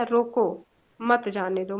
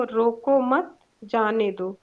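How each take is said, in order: First: रोको alone, clear break, then मत जाने दो together; pause after रोको. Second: रोको मत said as one phrase, break, then जाने दो; group मत with रोको, pause before जाने दो; pause after मत. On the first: Teacher showing the comma moved to after रोको, pause after रोको. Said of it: "रोको के बाद कामा लगा दिया". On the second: Teacher showing how a comma changes meaning, pause after मत. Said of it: "रोको मत के बाद कामा लगाया". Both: Shown as a demonstration.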